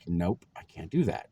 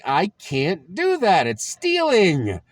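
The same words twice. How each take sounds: First: Said in the usual way. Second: Higher, louder and slow, dragging each word; loud slow refusal. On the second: Retold or imitated. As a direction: dig in and refuse, stretching it out. Teen refusing, argument with dad.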